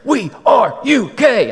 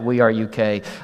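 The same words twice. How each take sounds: First: It is shouted loudly like a sports cheer. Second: It is said in a flat, plain voice. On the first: The speaker calls it right. "I'm used to going to ball games there. ... that's how you say it" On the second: The speaker calls it wrong. "I can't really say it like that"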